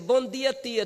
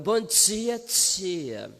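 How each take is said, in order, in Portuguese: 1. O d e o t antes do i soam simples. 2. O d e o t antes do i soam chiados. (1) "não sabe nem dizer bom dia tia" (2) "volta com sotaque carregado"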